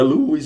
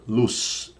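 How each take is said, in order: First: "luz" said as "luiz", with an added i sound; wrong pronunciation. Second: "Luz" said as a single clean syllable, with no i sound; correct pronunciation. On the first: Teacher showing students the wrong way to say luz, as "luiz". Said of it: "Tem quem fala luz com I". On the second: Teacher giving students the right way to say Luz, clean. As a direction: say "Luz" plainly as one syllable. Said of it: "Não é luz aí não". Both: Shown as a demonstration.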